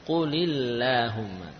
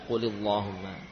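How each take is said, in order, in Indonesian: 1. L dalam lahumma diucapkan tipis. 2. L dalam lahumma diucapkan tebal. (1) "jadi tipis"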